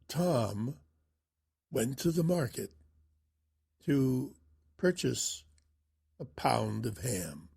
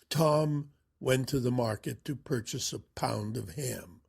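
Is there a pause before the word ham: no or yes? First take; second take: yes; no. First: There is a suspenseful pause before the last word. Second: It is said plainly without a pause. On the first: The listener is kept waiting to find out more. The speaker calls it right. "He would say it something like this" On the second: It is an unremarkable statement. The speaker calls it wrong. "Erickson wouldn't say it that way"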